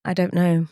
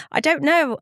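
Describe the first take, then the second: First: Said in the usual way. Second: A real laugh, then a higher I don't know; laughing, helpless answer. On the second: Real, not acted. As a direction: laugh it off, pitch up.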